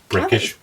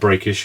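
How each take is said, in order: First: The first vowel sounds like the one in 'neck'. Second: The first vowel sounds like the one in 'brake'. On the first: This is how it is said locally. The speaker calls it right. "but apparently it's Breckish" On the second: This is how southerners would read it. The speaker calls it wrong. "It's spelled Breakish if you're from the south like us"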